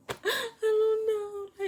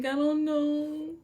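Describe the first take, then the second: First: Very high, slow, sobbing denial; crying. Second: High, slow, frightened denial; panicking. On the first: Student sobs to the principals, very high and slow. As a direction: break into tears on it. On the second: Student tells the principals, high and frightened. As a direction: plead it, close to tears. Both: Retold or imitated.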